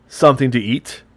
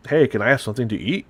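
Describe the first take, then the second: First: Said in the usual way. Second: Canadian accent, words running fast into one; rapid Canadian accent. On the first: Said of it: "Like, uh". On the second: Shown as a demonstration. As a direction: blur the words together like a quick Canadian. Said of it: "mine is rapid".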